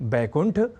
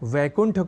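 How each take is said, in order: First: The word begins with a b sound. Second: The word begins with a v sound. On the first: The speaker calls it wrong. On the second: The speaker calls it right.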